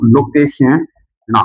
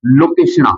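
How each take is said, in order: First: लोकेशना stretched out syllable by syllable, very slow; drawn out slowly. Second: Said in the usual way. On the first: Shown as a demonstration. Teacher dictating लोकेशना to students, very slow. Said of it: "ये लो दोस्तों". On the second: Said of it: "क्या लिखोगे".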